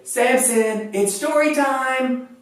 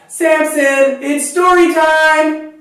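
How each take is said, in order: First: It is said at a normal, softer volume. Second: It is said louder, with more energy.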